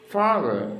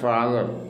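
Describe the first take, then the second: First: The first syllable is louder and the second falls. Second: Both syllables are said flat with equal weight. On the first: The speaker calls it right. "ഫാദറാണ് stress ചെയ്യേണ്ടത്. അൺസ്ട്രെസ് ആയിരിക്കും, താഴേക്ക് വരണം" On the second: The speaker calls it wrong. "Not"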